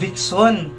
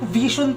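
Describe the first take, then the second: First: The middle consonant sounds like 'ks'. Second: The middle consonant sounds like 'zh'. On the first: The speaker calls it wrong. "Akala ko Vixon" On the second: The speaker calls it right. "Vision pala yung pag-pronounce niyan"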